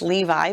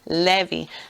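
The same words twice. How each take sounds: First: The name is said with an English pronunciation. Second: The name is said with a Hebrew pronunciation. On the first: The speaker calls it wrong. "we have been taught it's Levi, but that's just an English way of saying a Hebrew word" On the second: The speaker calls it right. "It should be Levi"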